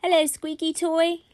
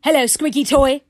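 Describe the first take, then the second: First: Put-on higher-pitched child's greeting; little boy. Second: Very loud, higher echo; yelled toy playback; grumpy yelling toy. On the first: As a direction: greet a toy like a small boy. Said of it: "he said something to the squeaky toy". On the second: Acted. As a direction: bark it back like a grumpy toy. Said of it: "grumpy and, oh dear, in a yelling".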